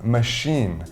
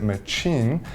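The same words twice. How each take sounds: First: The middle consonant is a soft 'sh' sound. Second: The middle consonant is a hard 'ch' sound. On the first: The speaker calls it right. "it's actually pronounced with the S H sound" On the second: The speaker calls it wrong. "people may be confused and pronounce it machine"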